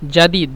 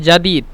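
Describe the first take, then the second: No difference in how they are said.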